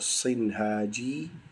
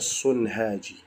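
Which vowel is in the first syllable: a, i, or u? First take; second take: i; u. First: The first syllable has the vowel i. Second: The first syllable has the vowel u. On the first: "boleh dibaca Sinhaji" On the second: "boleh juga dibaca Sunhaji"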